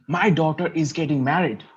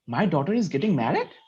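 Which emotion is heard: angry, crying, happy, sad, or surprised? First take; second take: angry; surprised. First: It is said in an angry tone. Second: It is said in a surprised tone.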